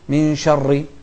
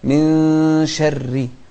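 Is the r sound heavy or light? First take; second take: heavy; light. First: The r sound is heavy and full. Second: The r sound is light and thin. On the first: The speaker calls it wrong. "ما نقول من شر لا" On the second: The speaker calls it right. "الراء المكسورة مرققة"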